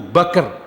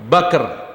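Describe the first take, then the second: Both takes have the same delivery.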